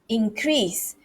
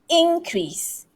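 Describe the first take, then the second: First: The stress is on the second syllable. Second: The stress is on the first syllable. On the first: The word is used as a verb. "When it's a verb, it is increase, increase" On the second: The word is used as a noun. "This is a noun. So increase, increase. Stress here"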